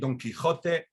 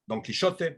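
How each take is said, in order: First: It uses the modern Spanish pronunciation, without sh. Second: It uses the Judeo-Spanish pronunciation, with sh. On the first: "in modern Spanish, you would say" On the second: "Judeo-Spanish, it's sh"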